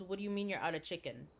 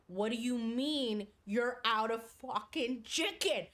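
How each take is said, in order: First: Quick, restrained mock challenge; imitated instant disbelief. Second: Slow, emphatic mock outrage; imitated meltdown. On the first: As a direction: fire it back fast but fairly low. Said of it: "my friend immediately, immediately". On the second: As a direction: draw out each word in retold disbelief. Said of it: "Starts losing it".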